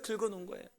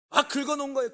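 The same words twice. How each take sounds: First: Soft echo. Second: 긁어놓은 punched high and loud, falling hard; emphatic first take. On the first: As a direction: let 긁어놓은 drop to a soft rueful echo. Echo of the previous line. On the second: Pastor telling the congregation about the scratch, 긁어놓은 said high and loud. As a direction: hit 긁어놓은 with a high loud peak then drop. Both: Acted.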